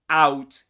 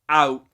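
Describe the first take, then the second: First: The final t is clearly released. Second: The final t is a glottal stop. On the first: "Rather than saying out" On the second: "he usually uses a glottal stop in the word out"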